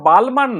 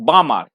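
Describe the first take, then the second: First: The L sound is pronounced in the word. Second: The L sound is left out of the word. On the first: The speaker calls it wrong. "উচ্চারণটা যে বালমার নয়" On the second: The speaker calls it right. "এলটা এখানে তোমার silent থাকবে"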